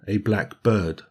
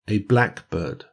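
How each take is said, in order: First: The stress falls on bird. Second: The stress falls on black. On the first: "as an adjective-noun combination" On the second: It names a particular kind of bird. "pronounced with the stress on the first syllable"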